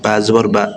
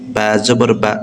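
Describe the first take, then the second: First: The vowel is said quickly without stretching. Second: The vowel is stretched out slowly. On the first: The speaker calls it right. "হরকতের উচ্চারণটাই হবে তাড়াতাড়ি" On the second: The speaker calls it wrong. "এভাবে পড়েন তাহলে হবে না, তাহলে এটা ভুল হবে"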